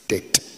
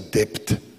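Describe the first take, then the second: First: The b sound is silent in the word. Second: The b sound is pronounced in the word. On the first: The speaker calls it right. "it is a silent B" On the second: The speaker calls it wrong. "I used to say debt"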